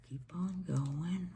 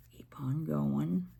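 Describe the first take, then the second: First: Whisper. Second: Said in the usual way. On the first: Real, not acted. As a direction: Keep on going whispered softly, no voice. Repeated instruction, then whispered.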